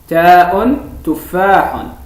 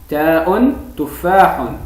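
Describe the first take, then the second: No difference in how they are said.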